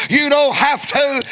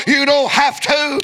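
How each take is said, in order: First: Shouted repeat. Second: Said in the usual way. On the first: Real, not acted.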